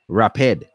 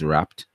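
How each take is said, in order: First: The ending is an extra separate syllable. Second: The ending is a single t sound. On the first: The speaker calls it wrong. "we don't say" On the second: The speaker calls it right. "So wrap becomes wrapped"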